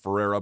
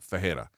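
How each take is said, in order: First: The middle consonant is an English R. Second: The middle consonant is an H-like sound. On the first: The speaker calls it wrong. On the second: The speaker calls it right. "take the R and pronounce it like we would take the H"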